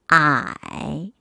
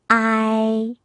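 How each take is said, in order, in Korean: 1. 음높이가 낮게 내려갔다가 올라갑니다. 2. 음높이가 높게 평평하게 유지됩니다.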